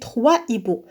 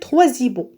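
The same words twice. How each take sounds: First: No linking sound joins the two words. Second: A linking z sound joins the two words. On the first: The speaker calls it right. "Mais on dit trois hiboux" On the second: The speaker calls it wrong. "Si on fait la liaison, on va dire trois hiboux"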